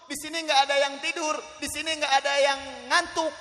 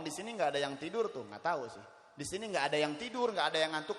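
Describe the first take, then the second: First: High, loud proclamation; raised preacher's voice, insisting; loud insistence. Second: Said in the usual way. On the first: Real, not acted. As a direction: declare it forcefully to the whole crowd. Repeats the claim emphatically to crowd.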